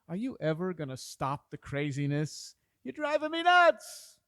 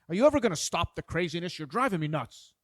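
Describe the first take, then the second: First: It sounds playful and joking. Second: It sounds hostile and annoyed.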